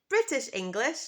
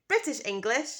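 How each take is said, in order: The two takes are said the same way.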